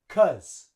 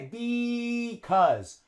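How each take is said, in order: First: The word is one short syllable without the b. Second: The word has both syllables, starting with a b. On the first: The speaker calls it right. "Native English speakers drop the B. We say cuz" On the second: The speaker calls it wrong. "we don't say because"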